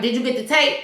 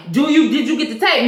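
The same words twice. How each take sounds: First: Said in the usual way. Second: Retold interrogation, pushing for an answer; pressing question. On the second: Boss interrogates officer about tape, pressing question.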